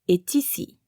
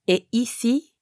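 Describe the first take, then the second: First: A T sound links est to ici. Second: No T sound links est to ici. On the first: "you do pronounce the final letter, like in est ici" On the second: "Notice the difference"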